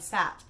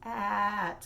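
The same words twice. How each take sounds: First: The word is said quickly, sounds not stretched. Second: The word is said slowly, each sound stretched. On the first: The speaker calls it wrong. "they're maybe just going sat" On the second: The speaker calls it right. "No, it's sat, like that"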